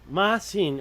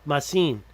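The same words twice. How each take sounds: First: The stress is on the first syllable. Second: The stress is on the second syllable. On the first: "Is it with the first syllable" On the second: "or is it the second syllable"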